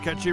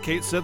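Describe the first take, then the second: First: The name sounds like one word, Ketchy. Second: The name sounds like two words, Kate Sith. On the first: The speaker calls it right. "or Ketchy rather" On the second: The speaker calls it wrong. "ketchup is a closer pronunciation than Cait Sith"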